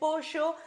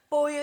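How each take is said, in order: First: The ll sounds like sh, Argentine style. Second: The ll sounds like a plain y.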